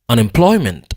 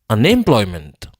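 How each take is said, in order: First: The stress is on the syllable ploy. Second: The stress is on the syllable em. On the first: The speaker calls it right. "ploy prononcer plus fort que tout" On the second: The speaker calls it wrong. "Si m'ta prononcer em nan plus fort que tout"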